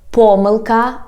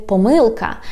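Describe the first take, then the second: First: "pomyłka" stressed on its first syllable, PO-. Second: "pomyłka" stressed on its middle syllable, -MYŁ-; stress on second syllable. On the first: Teacher showing learners one variant, "pomyłka" stressed on PO. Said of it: "some people say, for example". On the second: Teacher showing learners the other variant, "pomyłka" stressed on MYŁ. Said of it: "some people say pomyłka". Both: Shown as a demonstration.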